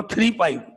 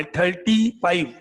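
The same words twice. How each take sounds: First: "थ्री फ़ाइव" read as two separate digits, three then five; "थ्री फ़ाइव" with a firm falling stress on थ्री; saying three five. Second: "थर्टी फ़ाइव" said slowly as one number, thirty-five; drawn-out "थर्टी फ़ाइव", stress on थर्टी; saying thirty-five. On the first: Teacher gives his own digit-by-digit version for contrast. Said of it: "और मैं बोला". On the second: Teacher quotes the students' answer, slow and deliberate. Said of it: "ऐसे बोला". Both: Shown as a demonstration.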